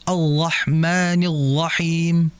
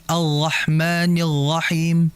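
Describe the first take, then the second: Both takes have the same delivery.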